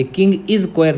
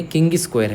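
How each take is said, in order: First: "किंग इज स्क्वायर" with इज standing apart as its own word; split into separate words. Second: "किंग स्क्वायर" with the first word run together as "king-is"; joined as Kingis. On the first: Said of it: "ये किंग इज स्क्वायर नहीं है". ("किंग इज स्क्वायर" में इज को अलग शब्द की तरह बोलें) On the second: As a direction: say "किंग स्क्वायर" as Kingis Quair, no break inside Kingis. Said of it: "के I N G I S". ("किंग स्क्वायर" में किंगिस को एक ही शब्द में जोड़कर बोलें) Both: Shown as a demonstration.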